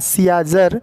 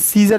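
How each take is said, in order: First: An extra ah vowel follows the first syllable. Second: The first syllable has only an ee vowel. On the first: "तो यहाँ सियाजर होना चाहिए" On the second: "लेकिन सीज़र इसको बोल रहे हैं।"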